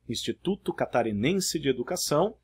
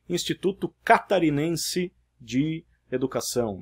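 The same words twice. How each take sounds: First: Each word keeps its usual stressed syllable. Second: A word is stressed on an unusual syllable. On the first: The speaker calls it right. "Ao invés de" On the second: The speaker calls it wrong. "é comum a gente ouvir"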